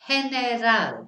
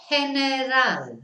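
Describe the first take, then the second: Both takes have the same delivery.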